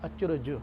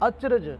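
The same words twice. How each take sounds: First: It is said with a faint 'u' after 'j'. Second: It is said plainly with no added vowel. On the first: "जज्जे दे थल्ले औंकड़ लगा करके बोलना है" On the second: "इसनूं इसे तरह ही पढ़ना है"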